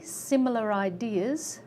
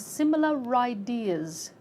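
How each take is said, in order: First: The words are said separately, not linked. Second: The final r links onto the next word. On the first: "similar ideas become similar ideas" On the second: "become similar ideas"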